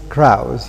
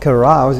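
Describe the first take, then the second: First: The first vowel is left out. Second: The first vowel is pronounced.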